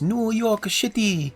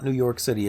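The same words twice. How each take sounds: First: It is said with a put-on Asian accent. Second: It is said in the speaker's plain accent.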